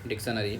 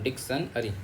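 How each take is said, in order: First: The word is said smoothly as one unit. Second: The word is split, ending with 'ari'.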